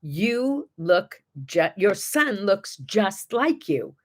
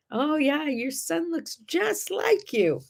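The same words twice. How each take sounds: First: Mild slow imitation of a thick Chinese accent; a lightly done thick Chinese accent, slow and careful. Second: Higher, slow mock Chinese accent. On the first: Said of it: "again, in a very thick accent". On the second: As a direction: replay her words higher and slowly in a Chinese accent. Repeating the woman's words.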